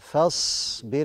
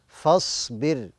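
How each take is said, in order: First: The opening f sound is light and thin. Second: The opening f sound is heavy and thick. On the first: The speaker calls it right. "نرقق الفاء ونفخم الصاد" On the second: The speaker calls it wrong. "فبعض الناس بيفخم الفاء لمجاورتها للصاد فبيقول ايه فاصبر"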